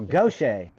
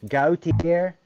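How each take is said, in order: First: The name ends with a 'shay' sound. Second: The name ends with a 'tee-er' sound. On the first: This is how locals say it. The speaker calls it right. "He said, oh, Gaucher" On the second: It is read the way it is spelled. The speaker calls it wrong. "I'll pass the sign, uh, Gautier"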